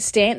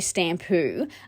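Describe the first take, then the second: First: The word ends on a bare consonant. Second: The word ends with an added vowel. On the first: This is the English way of saying it. "instead of saying stamp" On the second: This is how people in Japan say it. "they say stampu"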